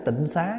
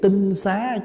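First: The first syllable has a low heavy tone. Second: The first syllable has a level tone. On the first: It is a corrupted reading of the word. The speaker calls it wrong. "mình đọc tịnh xá là mình đọc trại chữ" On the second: The word means a pure dwelling. The speaker calls it right. "cái chữ tinh xá chứ không phải tịnh xá"

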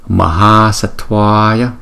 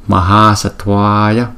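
The two takes are said the same way.

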